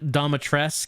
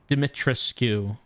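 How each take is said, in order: First: The name ends without a final vowel sound. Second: The name ends with a final 'oo' vowel. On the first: "the game pronounced it Domitresk" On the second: "Like you're supposed to pronounce the U"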